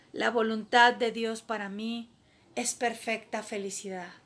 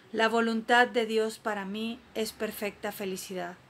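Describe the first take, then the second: No difference in how they are said.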